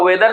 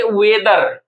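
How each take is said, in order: First: Said in the usual way. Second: "वेदर" slowly in two long parts, we-dar; split in two. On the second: Shown as a demonstration. Teacher splitting the word in two, slow drawn-out "वेदर". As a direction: stretch both halves of "वेदर". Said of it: "दो part में तोड़िएगा".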